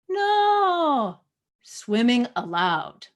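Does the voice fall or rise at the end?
fall. The pitch falls at the end of the phrase. It states that swimming is permitted.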